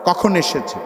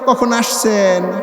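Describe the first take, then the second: First: The vowels are kept short without a lilt. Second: The vowels are drawn out with a regional lilt. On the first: It sounds like standard speech. The speaker calls it right. "মদের হরফ বাদ দেওয়া" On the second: It sounds like regional speech. The speaker calls it wrong. "শুদ্ধ করে বললে ওই ভাবটা চলে আসে"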